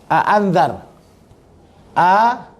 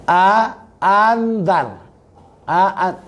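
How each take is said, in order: No difference in how they are said.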